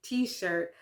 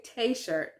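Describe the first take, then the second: First: "t-shirt" said as "tee-shirt"; English pronunciation kept. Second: "t-shirt" said as "tay-shirt", tee turned to tay; wrong French-style T. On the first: Learner showing how you have to pronounce it, "t-shirt" as "tee-shirt". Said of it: "you have to pronounce it". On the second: Learner showing what you don't say, "t-shirt" as "tay-shirt". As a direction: mispronounce "t-shirt" with an "ay" after the T. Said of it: "You don't say". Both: Shown as a demonstration.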